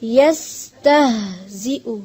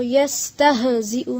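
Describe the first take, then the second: First: यस्तहजिउ slowly, h flowing out unbounced; no jerk on h. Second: यस्तहजिउ quickly with a jerk on the h. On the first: Teacher models correct reading, यस्तहजिउ with smooth h. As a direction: let the h in यस्तहजिउ breathe without a jolt. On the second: Teacher shows what not to read, यस्तहजिउ with jolted h. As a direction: bounce the h in यस्तहजिउ as a mistake. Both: Shown as a demonstration. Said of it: "हा के ऊपर झटका नहीं देना".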